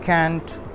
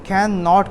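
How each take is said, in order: First: It is said as one contracted word. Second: It is said as two full words.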